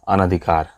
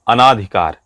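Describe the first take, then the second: First: The vowel after 'an' is a short a. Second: The vowel after 'an' is a long aa. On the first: The speaker calls it right. "शुद्ध है अनधिकार" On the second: The speaker calls it wrong. "लोग इसमें गलती क्या क्या करते हैं"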